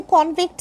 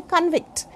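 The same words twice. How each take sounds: First: "convict" with a full O in the first syllable; noun convict. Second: "convict" with a weak first vowel; verb convict. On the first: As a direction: say "convict" as KON-vikt. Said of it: "convict is noun or adjective". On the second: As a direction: say "convict" as kun-VIKT. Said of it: "then convict is verb". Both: Shown as a demonstration.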